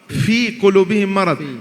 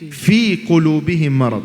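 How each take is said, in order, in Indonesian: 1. Bunyi f hanya terdengar seperti hembusan udara. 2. Bunyi f adalah frikatif yang jelas dan tegas. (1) "هذا ليس فاء، هذا هواء فقط" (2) "لا لابد هكذا، هذا مع هذا"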